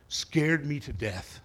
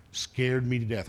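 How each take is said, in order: First: Slow, drawn-out scared me to death; slow repeat. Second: Said in the usual way. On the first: Shown as a demonstration. Preacher repeating his fear to the congregation, slowed down. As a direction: lean on Scared me to death slowly for weight.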